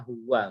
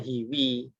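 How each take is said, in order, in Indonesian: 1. Kedua vokal itu bunyi a. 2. Kedua vokal itu bunyi i. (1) "pasti bacanya huwa" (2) "Tidak pernah dibaca hiwi"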